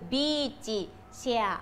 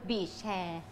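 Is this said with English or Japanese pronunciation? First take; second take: Japanese; English. First: It is said with Japanese pronunciation. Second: It is said with English pronunciation. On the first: "ภาษาญี่ปุ่นคือ" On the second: "ภาษาอังกฤษคำว่าเก้าอี้ชายหาดคือ"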